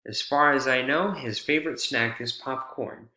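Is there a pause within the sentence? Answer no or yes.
no. There is no pause inside the sentence. "or take away a pause"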